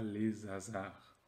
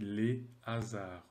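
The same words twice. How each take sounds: First: The two words are joined by a linking z sound. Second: The two words are said without a linking z sound. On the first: The speaker calls it wrong. "on ne dit pas les hasards" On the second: The speaker calls it right. "on dit les hasards"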